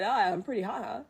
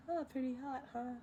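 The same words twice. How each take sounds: First: Said in the usual way. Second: Soft, breathy cocky dragon; Eddie Murphy impression. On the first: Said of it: "uh, what was it?". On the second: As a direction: redo it as Eddie Murphy's Mushu. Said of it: "I love Eddie Murphy".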